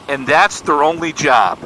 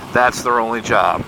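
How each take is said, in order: First: Questioning, a little higher; incredulous question. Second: Said in the usual way. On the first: Retold or imitated. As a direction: check it in mild disbelief. Young man questioning the dad.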